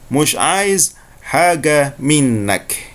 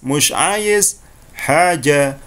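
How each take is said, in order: First: The last word has a hard 'g', Egyptian style. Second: The last word has a 'j' sound.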